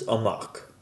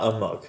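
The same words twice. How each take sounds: First: The second vowel is an 'ah' sound. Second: The second vowel is an 'uh' sound. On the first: The speaker calls it right. "O makes an O, an ah sound, not an uh sound" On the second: The speaker calls it wrong. "This is not amok"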